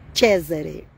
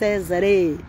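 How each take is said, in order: First: The name is said with an Italian pronunciation. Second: The name is said with a Portuguese-style pronunciation. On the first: The speaker calls it right. "Já que eu vou falar italiano, vou falar certo" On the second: The speaker calls it wrong. "não é nem Césare"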